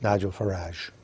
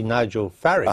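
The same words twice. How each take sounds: First: Farage ending in a soft "-AHZH"; French-style pronunciation. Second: Farage rhyming with "marriage"; anglicised pronunciation. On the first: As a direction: say Farage like "garaazh", low and falling. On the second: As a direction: say Farage with an English "-idge" ending. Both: Shown as a demonstration. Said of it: "or should that be".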